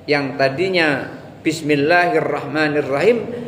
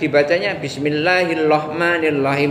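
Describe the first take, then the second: First: The r sounds are pronounced as true r sounds. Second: The r sounds are replaced by l sounds. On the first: "Yang tadinya" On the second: "tidak boleh dibuat-buat ... padahal dia bisa"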